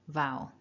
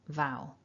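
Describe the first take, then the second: Both takes have the same delivery.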